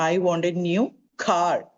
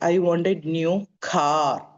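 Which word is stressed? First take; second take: car; car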